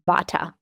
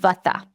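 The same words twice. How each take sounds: First: It is said in a Western, anglicized pronunciation. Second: It is said in an Indian, Sanskrit-style pronunciation. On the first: "in the West, we pronounce it Vata" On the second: "the first constitution that we teach out of Ayurveda is called Vata"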